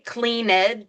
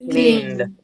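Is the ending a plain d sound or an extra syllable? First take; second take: extra syllable; d sound. First: The ending is an extra syllable. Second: The ending is a plain d sound. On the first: The speaker calls it wrong. "if you say clean ed to an American, they're going to go, what?" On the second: The speaker calls it right. "this is going to be pronounced, as D"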